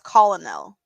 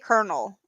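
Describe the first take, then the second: First: It is said following its spelling. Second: It is said the usual spoken way. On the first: "It says colonel" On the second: "You say colonel, but it's not spelt that"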